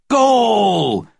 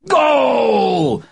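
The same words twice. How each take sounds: First: Loud high commentator yell; goal shout. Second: Loud high excited yell; goal shout. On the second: Daddy shouts at TV. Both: A narrator's reading.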